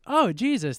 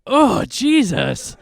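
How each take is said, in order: First: Said in the usual way. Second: Drawn-out, louder, higher shocked Oh, laughing; horrified oh Jesus. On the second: Retold or imitated. Crowd seeing him shaved, slow shocked gasp. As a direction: recoil in slow horror at the ugly face. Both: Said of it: "be like".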